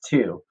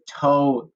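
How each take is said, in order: First: The vowel is a long 'oo' sound. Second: The vowel is a long 'oh' sound. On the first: The speaker calls it right. "It's two" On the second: The speaker calls it wrong. "this O normally makes the ah sound or the O sound, but we don't say"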